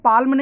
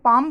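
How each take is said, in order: First: An l sound is pronounced before the m. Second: The l is silent, with no l sound. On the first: The speaker calls it wrong. "इसको पाल्म नहीं" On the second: The speaker calls it right. "बल्कि पाम बोलेंगे, एल silent है"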